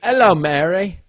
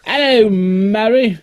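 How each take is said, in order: First: Loud, high Cockney Hello, Mary; mock Mary Poppins Cockney; Cockney accent. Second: High, slow Cockney Hello, Mary; stretched mock Cockney greeting; Cockney accent.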